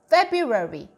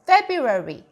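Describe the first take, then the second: The two takes are said the same way.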